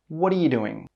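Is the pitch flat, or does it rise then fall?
rise-fall. The pitch goes up and then comes down. The speaker calls it right. "The intonation goes up and then it comes down"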